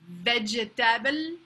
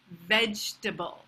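First: The word is said with a French accent. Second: The word is said with an English accent. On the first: "how a French person might say it" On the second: "the pronunciation in English"

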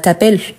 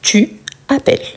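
First: The vowel of 'tu' is dropped and merged. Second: The vowel of 'tu' is fully pronounced. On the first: This is a casual spoken form. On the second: This is the full form used in writing.

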